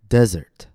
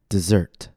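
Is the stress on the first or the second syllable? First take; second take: first; second. First: The stress is on the first syllable. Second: The stress is on the second syllable. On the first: It is a noun: a dry region. "First, I'll say it as a noun, with stress on the first syllable" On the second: It is a verb: to abandon. "After that, I'll say it as a verb, with stress on the second syllable"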